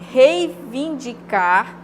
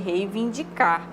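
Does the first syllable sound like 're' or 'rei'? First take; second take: rei; re. First: The first syllable is 'rei' with an i. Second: The first syllable is 're' without an i. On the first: The speaker calls it right. "É rei" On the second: The speaker calls it wrong. "O que a gente ouve geralmente é reivindicar, re"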